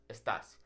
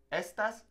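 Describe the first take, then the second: First: "estás" as es-TÁS, lower and softer; weight the end of "estás", dropping the pitch; stress on final syllable. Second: "Estas" as ES-tas, lifted high; stress on first syllable. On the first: Teacher completing the contrast for learners, "estás" stressed on TÁS. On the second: Teacher repeating the contrast for learners, "Estas" stressed on ES. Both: Shown as a demonstration. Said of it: "not estas".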